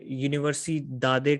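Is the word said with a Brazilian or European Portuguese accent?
European Portuguese. It is said with a European Portuguese accent.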